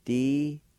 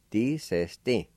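First: "Desisting" in held, separate syllables; syllable-by-syllable pronunciation. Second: "Desisting" run together as one word; "Desisting" as a connected, careful word; joined-up pronunciation. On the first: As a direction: draw out "Desisting" with gaps between syllables. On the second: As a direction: link the syllables of "Desisting" without pauses. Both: Shown as a demonstration. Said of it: "It's pronounced like this".

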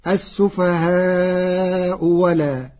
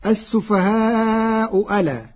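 First: السفهاء ولا, slow, the hamza turned into an open waw; السفهاء ولا said as wala. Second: السفهاء ألا with a full hamza on ألا; hamza kept. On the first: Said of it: "بإبدال الهمزة واوا مفتوحة". (السفهاء ولا بإبدال الهمزة واوا) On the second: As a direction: say السفهاء ألا with the glottal stop. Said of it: "قرأ ورش كلمة ألا". (السفهاء ألا بتحقيق الهمزة) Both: Shown as a demonstration.

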